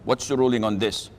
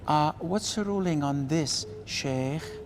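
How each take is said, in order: First: It is said in a plain, direct voice. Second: It is said in a soft, luring voice.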